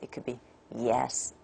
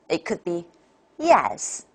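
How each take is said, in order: First: It falls from a low pitch. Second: It falls from a high pitch.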